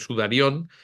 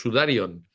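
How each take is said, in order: First: The stress falls on the last syllable. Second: The stress falls before the last syllable. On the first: The speaker calls it wrong. "se acentúa eh, como si fuera una palabra aguda" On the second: The speaker calls it right. "en griego es sudarion"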